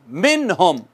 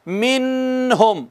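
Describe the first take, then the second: First: मिनहुम with a clear, plain नून, lower; correct reading. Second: मिनहुम with the नून held back, demonstrated as wrong; mock the wrong मिनहुम; wrong reading. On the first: Teacher correcting the student with the right मिनहुम. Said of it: "नहीं, मिनहुम". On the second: Teacher showing students how not to read मिनहुम. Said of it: "इसको यूं नहीं पढ़ना". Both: Shown as a demonstration.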